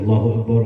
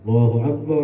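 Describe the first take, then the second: First: It is said rather quickly. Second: It is said slowly and drawn out.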